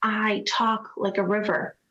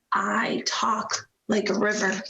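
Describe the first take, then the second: First: "talk" leaned on, whispered line; stress on talk. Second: "like" leaned on, whispered line; stress on like. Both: Shown as a demonstration.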